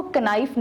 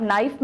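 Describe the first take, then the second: First: कनाइफ said with the k sounded; wrong pronunciation. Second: नाइफ said with a silent k, just "naif"; right pronunciation. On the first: Teacher showing students the wrong way to say knife, k sounded. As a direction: sound the silent k in कनाइफ on purpose. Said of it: "इसको कनाइफ नहीं पढ़ते". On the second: Teacher giving students the correct knife with a silent k. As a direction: say नाइफ without any k sound. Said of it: "नाइफ में के silent है". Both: Shown as a demonstration.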